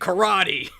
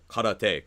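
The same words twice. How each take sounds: First: It is pronounced with English sounds. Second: It is pronounced with Japanese sounds. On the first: "in English we say karate" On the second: "much closer"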